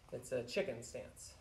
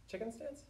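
First: Said in the usual way. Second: "Chicken stance" lifted into a soft question; doubting question. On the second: Pretend. Teacher doubting the stance name he just gave, questioning rise on "Chicken stance". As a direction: query "Chicken stance" quietly with a higher pitch.

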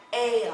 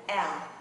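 First: "L" stretched as "ay-ul", gliding vowel; long A before L. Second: "L" said as a short "el"; short E before L. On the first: Teacher contrasting two vowels, long "ay-ul" for "L". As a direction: draw out "L" with a long A sound first. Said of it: "Một cái là L". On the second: Teacher contrasting two vowels, short "el" for "L". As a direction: keep the E in "L" short and open. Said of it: "một cái là L". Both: Shown as a demonstration.

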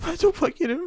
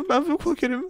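First: High fake sobbing; mock crying. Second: Said in the usual way. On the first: Poor Spider-Man fake-crying to the waiter. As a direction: whimper it like a fake cry. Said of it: "Ağlamayın efendim".

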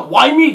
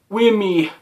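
First: "wimey" with a long i; corrected pronunciation. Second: "whimmy" with a short i; mispronounced wimey. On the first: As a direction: say "wimey" to rhyme with limey. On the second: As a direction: say "whimmy" to rhyme with Jimmy. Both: Real, not acted. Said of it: "no, wimey".

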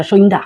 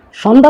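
First: সন্ধ্যা said as "shoinda", with an oi glide; Sylheti pronunciation. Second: Said in the usual way. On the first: Shown as a demonstration. (সন্ধ্যা সিলেটি উচ্চারণে "সইন্দা") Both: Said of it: "সন্ধ্যা তো কইতাম না".

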